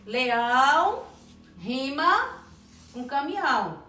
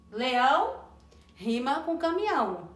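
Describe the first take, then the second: First: LEÃO stretched very slowly, then pauses before "rima" and "com caminhão"; drawn-out demonstration. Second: Said in the usual way. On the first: Shown as a demonstration. Teacher repeats rhyme, stretching it out.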